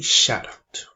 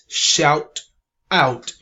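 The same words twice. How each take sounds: First: The two words are linked together. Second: The two words are said separately. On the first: "but we say shout out" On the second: "The word is shout out"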